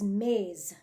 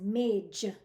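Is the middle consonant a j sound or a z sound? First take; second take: z sound; j sound. First: The consonant is a z sound. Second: The consonant is a j sound. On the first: The speaker calls it right. "the correct way is maze" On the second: The speaker calls it wrong. "with a j sound instead of a z like zebra"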